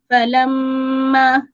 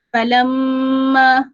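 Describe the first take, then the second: First: The nasal sound is held for two beats. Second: The same.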